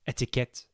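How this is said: It is said with a French pronunciation. "French etiquette"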